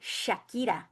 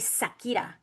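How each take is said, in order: First: The name begins with an 'sh' sound. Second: The name begins with a plain 's' sound. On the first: "they don't say Shakira" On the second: "they say Sakira because they can't pronounce the S H"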